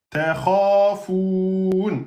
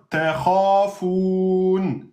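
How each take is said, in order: The two takes are said the same way.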